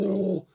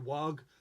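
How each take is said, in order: First: The word ends without any G sound. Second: The word ends with a hard G sound. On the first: "in Dawn of War, they go" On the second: "They pronounce the G"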